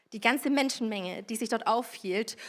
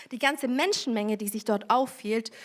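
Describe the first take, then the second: The two takes are said the same way.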